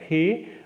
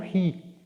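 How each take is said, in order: First: The vowel is an E sound. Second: The vowel is an I sound. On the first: This is the older pronunciation. "ele passa a ser pronunciado não como re" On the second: This is the later pronunciation. "mas como ri"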